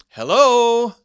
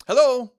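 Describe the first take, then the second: First: Loud, high hello held long; loud sharp hello. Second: Said in the usual way. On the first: Shown as a demonstration. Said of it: "Different tone". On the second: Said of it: "Same word, right? Different tone".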